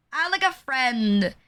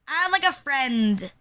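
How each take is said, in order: Both takes have the same delivery.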